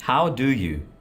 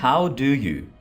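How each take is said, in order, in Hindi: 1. हर शब्द पूरा और अलग-अलग बोला जाता है। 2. हर शब्द पूरा और अलग-अलग बोला जाता है।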